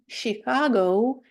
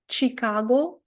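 First: The word begins with an sh sound. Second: The word begins with a ch sound. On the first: The speaker calls it right. "а ... Chicago" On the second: The speaker calls it wrong. "Не ... Chicago"

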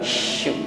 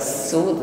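First: The consonant is an airy sh sound. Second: The consonant is a plain s sound. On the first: The speaker calls it right. "tetapi syu" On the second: The speaker calls it wrong. "bukan su"

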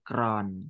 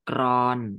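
First: The syllable is said with a low tone. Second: The syllable is said with a mid tone.

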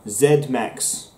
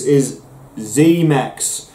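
First: The letter Z is said the British way. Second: The letter Z is said the American way.

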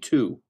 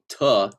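First: The vowel is said fully as 'to'. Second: The vowel is reduced to a weak 'ta'. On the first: The speaker calls it right. "If we enunciate ta, it would be to" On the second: The speaker calls it wrong. "not ta"

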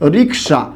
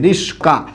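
First: The k sound comes before the s sound. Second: The s sound comes before the k sound. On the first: "আমরা একটা শব্দ প্রায় এরকম ব্যবহার করে থাকি, রিক্সা।" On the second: "অনেকে এরকম করে, রিস্কা উচ্চারণ করে থাকে"

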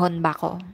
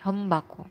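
First: A hard n sound comes before the b. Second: An m sound comes before the b. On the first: The speaker calls it wrong. "Di siya yung matigas na honbako" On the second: The speaker calls it right. "Hindi, humbako"

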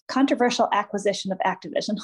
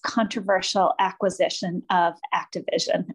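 First: The phrase is spoken very quickly. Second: The phrase is spoken at a normal pace.

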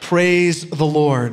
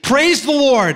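First: It is said in a plain, ordinary way. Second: It is said in a joyful, celebrating way.

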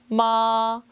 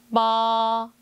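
No difference in how they are said.

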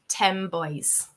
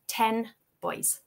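First: The word ten ends with an m-like sound. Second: The word ten ends with a clear n sound.

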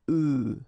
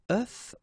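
First: It is said with the plural-form pronunciation. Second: It is said with the singular-form pronunciation. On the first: There are several eggs. "for the plural form here it's œuf" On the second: There is one egg. "for the singular form it's œuf"

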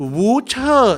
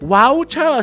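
First: The first syllable has a u vowel. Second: The first syllable has an ao vowel. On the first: "สระอู" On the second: "สระเอา"

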